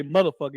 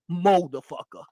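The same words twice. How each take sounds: First: Said in the usual way. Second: Motherfucker with an open moh at the start; mocking pronunciation. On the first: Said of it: "You don't say motherfucker". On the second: Imitating the streamer's motherfucker to friends. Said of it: "he said motherfucker".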